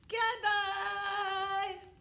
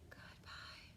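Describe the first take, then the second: First: It is said very loudly. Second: It is said very quietly.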